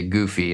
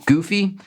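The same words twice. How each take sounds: First: Said in the usual way. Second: High questioning goofy, searching for the word; goofy asked up high as if testing the word; unsure word choice. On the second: Real, not acted. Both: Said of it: "I'm gonna say goofy".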